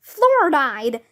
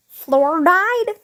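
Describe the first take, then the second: First: Name stated as "Fluoride", falling, no question; announcing. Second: "Fluoride" as a question, pitch climbing high; asking. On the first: Superhero introduces herself as "Fluoride", announcing. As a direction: announce "Fluoride" evenly as your hero name. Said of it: "announced the superhero". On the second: Puzzled class echoes "Fluoride", asking. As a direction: query "Fluoride" with a rising end. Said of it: "we all asked". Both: A narrator's reading.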